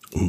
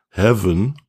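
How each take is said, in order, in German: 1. Das H ist stumm; es klingt wie van. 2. Es beginnt mit einem H-Laut, wie bei heaven. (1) "Das H ist aber stumm. Es ist ein Van" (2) "viele sagen Heaven"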